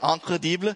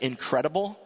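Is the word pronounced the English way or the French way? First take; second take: French; English. First: It is pronounced with a French accent. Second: It is pronounced with an English accent. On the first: "it's pronounced like the French pronounce it" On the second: "in English, if I say incredible"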